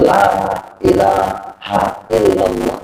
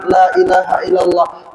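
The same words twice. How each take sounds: First: Talqin whisper to the dying. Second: Said in the usual way. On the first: Shown as a demonstration. Preacher shows how to prompt a dying person: low, slow murmur. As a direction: murmur "La ilaha illallah" slowly, low, as if at a deathbed. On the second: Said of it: "mengucap kalimat".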